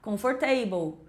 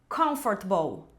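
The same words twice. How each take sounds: First: Every syllable is said, ending like 'table'. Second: Several sounds are dropped, making it shorter. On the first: The speaker calls it wrong. "O finalzinho é igual table, então vou falar comfortable" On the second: The speaker calls it right. "engolir várias letras"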